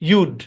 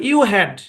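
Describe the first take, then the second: First: The words are joined into one short syllable. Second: Both words are said in full. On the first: "এটার contraction হচ্ছে ইউড" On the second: "এটা আমার মূল form"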